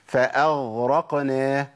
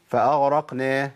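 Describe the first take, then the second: First: The ghain is clearly and firmly articulated. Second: The ghain is weakened and nearly lost. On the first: The speaker calls it right. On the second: The speaker calls it wrong.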